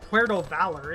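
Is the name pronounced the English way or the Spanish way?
English. It is said with English-style vowels and consonants. The speaker calls it wrong. "it's not fun to pronounce it"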